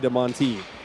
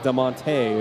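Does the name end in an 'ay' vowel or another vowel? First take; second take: another vowel; ay. First: The name is said without an 'ay' vowel. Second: The name is said with an 'ay' vowel. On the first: This is how locals say the name. "You say DeMonte" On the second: This is how a Southern California speaker would say it. "It would be an A sound"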